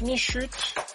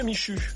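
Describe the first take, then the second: First: The name ends with a t sound. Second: The name ends on a vowel sound. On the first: The speaker calls it right. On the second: The speaker calls it wrong.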